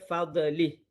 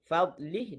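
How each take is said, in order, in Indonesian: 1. Bunyi 'd' ada pantulan bergema tambahan. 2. Bunyi 'd' ditahan tanpa memantul. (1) "menambah qalqalah yang tak seharusnya" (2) "huruf dot jangan qalqalah"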